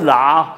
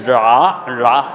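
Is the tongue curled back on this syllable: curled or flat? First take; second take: flat; curled. First: The syllable is said with a flat tongue. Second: The syllable is said with a curled-back tongue. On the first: The speaker calls it wrong. "不是拉" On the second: The speaker calls it right. "就要卷舌，是拉"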